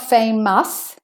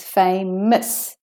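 First: Famous said as FAY-MUSS, ending unreduced; full second vowel. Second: Famous as FAY-muhs, schwa in the ending; de-stressed ending. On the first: Teacher showing what it's not, over-pronounced famous. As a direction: give famous a full, strong -mous. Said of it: "So it's not famous". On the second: Teacher explaining the schwa vowel, de-stressed ending on famous. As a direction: draw out fame, weaken -ous in famous to a schwa. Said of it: "The O U S is de-stressed". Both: Shown as a demonstration.

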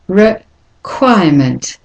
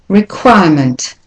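First: "Requirement" slowed, with a gap after re; slow split model, re... quirement; syllable-by-syllable demonstration. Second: "Requirement" joined up, weak first and last syllables; connected model of "Requirement" with schwas; schwas in place. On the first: Teacher breaks word into syllables. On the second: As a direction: say "Requirement" whole, reducing re and ment. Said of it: "you've got two schwas there". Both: Shown as a demonstration.

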